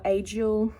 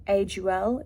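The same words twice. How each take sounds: First: Aduel said "AY-jool"; two-syllable pronunciation. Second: Aduel said "AY-joo-el"; three-syllable pronunciation. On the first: Vlogger offering another guess at the name, Aduel as AY-jool. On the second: Vlogger unsure of a god's name, Aduel as AY-joo-el. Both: Shown as a demonstration. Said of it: "don't know how to pronounce".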